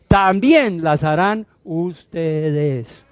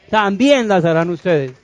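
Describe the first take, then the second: First: Very slow, stretched-out words; deliberate, drawn-out proclamation; emphatic slow delivery. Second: Said in the usual way. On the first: Acted. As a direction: draw out "también" and "ustedes" for weight. Preacher stresses promise word by word.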